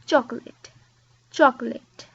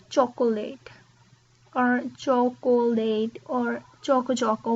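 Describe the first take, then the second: First: Chocolate said "choc-lat"; chocolate, in two beats; chocolate, two syllables. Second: Chocolate with three full syllables; "cho-co-late", every syllable; wrong chocolate. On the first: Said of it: "But we say". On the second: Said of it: "I hear many people say". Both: Shown as a demonstration.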